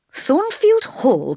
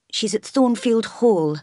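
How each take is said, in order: First: High, drawn-out cry of disbelief; slow, high-pitched incredulous question; astonished cry. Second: Higher, feeble-voiced reply; timid, weakened higher voice; weak voice. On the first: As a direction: cry out the name in shock, slowly. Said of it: "cried the priest". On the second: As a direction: answer weakly, pitched up. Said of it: "replied Mason in a weak voice". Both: A narrator's reading.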